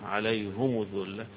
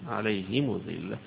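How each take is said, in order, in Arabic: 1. الحركتان الرابطتان كلتاهما ضمة. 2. الحركتان الرابطتان كسرة ثم ضمة. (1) "يضم ضمتين فيها" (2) "بكسر وضم في الآخر"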